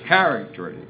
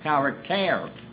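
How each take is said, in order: First: The stress is on the first syllable. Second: The stress is on the last syllable. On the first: This is the English pronunciation. "the English is character, accent on the first syllable" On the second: This is the original Greek pronunciation. "the accent's on the last syllable"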